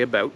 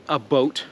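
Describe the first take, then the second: First: "about" said as one plain word; "about", ordinary Canadian; real Canadian pronunciation. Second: "a boat" said as two words, a boat; "a boat", the mistaken American version; wrong Canadian stereotype. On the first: Telling viewers how Canadians really say it: "about", plainly. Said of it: "We say". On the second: Mocking what Americans think Canadians say: "a boat" as two words. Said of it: "Apparently, we say". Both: Shown as a demonstration.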